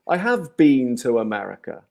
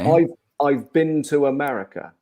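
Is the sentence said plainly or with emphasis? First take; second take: emphasis; plainly. First: It is said with strong, marked emphasis. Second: It is said plainly, without extra emphasis. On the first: "with emphasis" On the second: "if I'm just talking normally"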